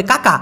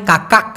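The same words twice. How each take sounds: First: "কাকা" ending on the vowel, no last k; final k dropped. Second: "কাকাক" with a k closing the word; final k sounded. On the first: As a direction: say "কাকা" short, without a closing k. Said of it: "ছোট করে উচ্চারণ করে". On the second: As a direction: end "কাকাক" on a k stop. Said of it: "উচ্চারণটা হয় কাকাক". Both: Shown as a demonstration.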